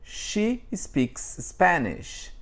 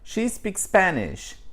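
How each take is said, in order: First: An extra vowel separates the two S sounds. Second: The two S sounds merge with no vowel between. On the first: The speaker calls it wrong. "aparece um A no meio... Esse é o brasileiro" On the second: The speaker calls it right. "um americano falando"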